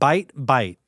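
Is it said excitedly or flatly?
flatly. It is said flatly, without excitement.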